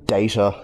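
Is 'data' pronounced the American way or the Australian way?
American. The word is said with an American pronunciation. "To say data is the American way"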